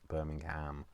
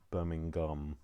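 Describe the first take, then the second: First: The final syllable sounds like 'ham'. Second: The final syllable sounds like 'gum'. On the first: The speaker calls it wrong. "So not Birmingham" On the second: The speaker calls it right. "so Birmingham is gum"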